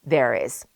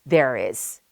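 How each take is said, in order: Both takes have the same delivery.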